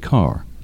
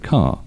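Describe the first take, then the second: First: It is said with an R sound at the end. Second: It is said with no R sound at the end. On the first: This is how most American speakers say it. "And in American English, mostly people say car" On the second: This is how British speakers say it. "we don't pronounce the letter R when it comes after a vowel"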